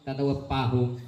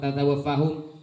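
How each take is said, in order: First: The last word begins with a p sound. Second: The last word begins with an f sound. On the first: The speaker calls it wrong. "pakai pa" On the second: The speaker calls it right. "kalau fa"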